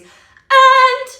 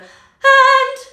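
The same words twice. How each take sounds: First: The word starts with a hard glottal catch. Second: The word starts with a soft breathy onset. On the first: It adds grit and intensity. "that's what did it" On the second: It costs the voice less effort. "where I'm adding a silent H in front of the A to keep me from slapping"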